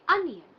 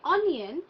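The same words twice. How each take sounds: First: The first vowel sounds like 'uh'. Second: The first vowel sounds like 'oh'. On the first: The speaker calls it right. "we say onion" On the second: The speaker calls it wrong. "We don't say onion"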